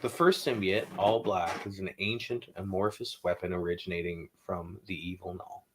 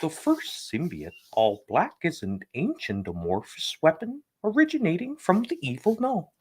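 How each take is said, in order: First: It is read in his normal voice. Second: It is read in a Kermit the Frog voice.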